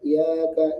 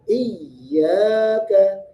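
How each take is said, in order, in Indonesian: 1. Y yang ganda dibaca datar, hampir hilang. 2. Y yang ganda dibaca ditekan dengan sedikit tenaga. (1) "tidak datar, tidak" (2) "menekan sedikit suaranya"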